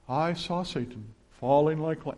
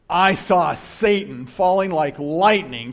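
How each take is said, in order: First: It is said in a flat, somber tone. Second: It is said in a joyful, celebrating tone. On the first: The speaker is merely reporting something grave. The speaker calls it wrong. "he didn't say that like this" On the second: The speaker is celebrating a victory. The speaker calls it right. "He was full of joy and celebrating"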